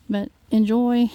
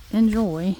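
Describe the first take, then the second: First: Enjoy louder and slow, drawn out; emphatic enjoy. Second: Said in the usual way. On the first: Real, not acted. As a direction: stretch enjoy and push it out. Cut off, then repeated.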